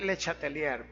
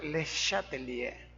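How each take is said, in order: First: It is read aloud following Spanish spelling rules. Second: It is said with a French pronunciation. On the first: This is how the name is written. The speaker calls it wrong. "se escribe" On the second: This is how the name is actually pronounced. The speaker calls it right. "pero se pronuncia Le Chatelier, francés"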